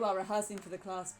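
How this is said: It is spoken in an RP accent. The speaker calls it wrong. "why am I doing it in an R P accent?"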